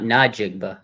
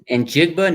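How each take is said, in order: First: A vowel separates the N from the J. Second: The N runs straight into the J. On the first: The speaker calls it wrong. "not Najigba" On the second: The speaker calls it right. "says Njigba, not Najigba"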